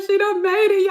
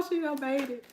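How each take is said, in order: First: High, loud, proud cry; tearful cheer. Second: Higher but softer, choked repeat; teary hush. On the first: Fan cheering the actress on, high and loud. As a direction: shout it like your baby just flew. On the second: Fan overcome, softly repeating through tears. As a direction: say it again gently through tears. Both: Retold or imitated. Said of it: "I was like".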